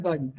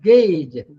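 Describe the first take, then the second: First: "gauge" with an aw vowel, like "gawj"; rejected "gauge", rounded vowel, softer; wrong pronunciation. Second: "Gauge" said "gayj"; firm model of "Gauge", rhymes with page; correct pronunciation. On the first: Retold or imitated. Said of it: "not gauge". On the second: Shown as a demonstration. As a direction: say "Gauge" with a long ay vowel, loudly. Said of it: "like gauge".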